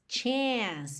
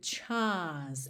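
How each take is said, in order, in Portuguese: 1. A vogal é americana, achatada e espalhada. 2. A vogal é britânica, longa e aberta. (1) "No inglês americano a gente teria chance. Chance, bem horizontal" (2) "Esse chance tá bem britânico aqui também"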